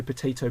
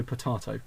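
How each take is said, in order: First: POTATO said "puh-TAY-toh". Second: POTATO said "puh-TAH-toh"; joke-variant potato, middle syllable TAH. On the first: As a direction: say potato with "ay" as in day. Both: Shown as a demonstration. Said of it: "is there a third way to pronounce".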